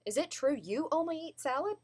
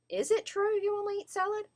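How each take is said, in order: First: Higher-pitched, surprised that YOU only eat salad; surprised question. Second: IS hit first, then much higher pitch throughout; doubting question with stress on IS; doubtful question. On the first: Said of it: "you're surprised that they". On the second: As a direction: question whether it IS true, pitched way up. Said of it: "sound like you have doubts". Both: Shown as a demonstration.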